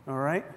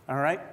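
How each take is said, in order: Both takes have the same delivery.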